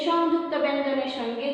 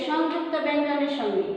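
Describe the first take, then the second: No difference in how they are said.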